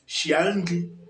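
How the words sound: The word begins with a sh sound. This is the regional dialect form. "But normally it is shianri"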